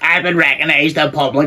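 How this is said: It is said in a natural, everyday accent. The speaker calls it right. "I preferred the other accent because it sounds more natural"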